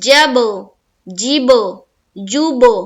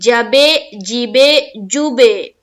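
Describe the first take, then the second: First: The final b bounces with no added vowel. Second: An extra vowel sound follows each final b. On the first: The speaker calls it right. "हमको करना है" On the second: The speaker calls it wrong. "अब कोई कर दे जबे जीबे जुबे, गलत है"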